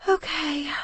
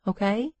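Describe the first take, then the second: First: High sleepy okay through a yawn. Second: Said in the usual way. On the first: A narrator's reading. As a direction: yawn the word out, drowsy. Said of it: "I yawned". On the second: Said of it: "Okay," I yawned".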